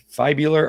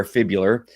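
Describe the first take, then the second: First: "fibular" said FYE-byoo-lar; long-I pronunciation. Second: "fibular" said FIB-yoo-lar; short-I pronunciation. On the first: Unsure reader trying out a medical word, "fibular" as FYE-byoo-lar. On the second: Unsure reader offering the other option, "fibular" as FIB-yoo-lar. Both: Shown as a demonstration. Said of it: "some of these words I cannot pronounce".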